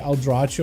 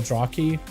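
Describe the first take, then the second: First: The middle consonant is a 'ch' sound. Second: The middle consonant is a 'k' sound. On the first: "I saw the C H and I was like Eldrachi" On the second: "that actually sounds cooler"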